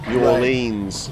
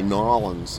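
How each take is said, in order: First: It is said the way English people say it. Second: It is said the way locals there say it. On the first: "English people say New Orleans" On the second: "There they say New Orleans"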